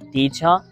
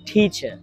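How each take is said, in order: First: The t is said without a puff of air. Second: The t is said with a strong puff of air. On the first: The speaker calls it wrong. "আর আমরা আগে বলতাম" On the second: The speaker calls it right. "ঠিক এভাবেই pronounce করার চেষ্টা করব। ঠ"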